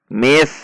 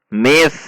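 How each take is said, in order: The two takes are said the same way.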